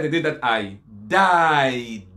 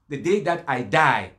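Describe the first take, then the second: First: "died" hugely drawn out, final d released hard; stress on "died". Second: Said in the usual way. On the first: Shown as a demonstration. Debater correcting a mistranslation, "died" stretched with a hard final d. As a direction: stretch "died" slowly and land on the d. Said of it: "Not that". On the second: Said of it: "The correct translation is".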